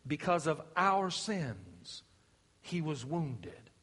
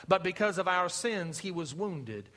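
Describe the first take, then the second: First: Slower and softer, dwelling on "our sins" and "wounded"; slow solemn repeat. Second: Said in the usual way. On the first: Acted. Preacher repeating Isaiah for weight, slow and solemn. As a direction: linger on each word as it sinks in.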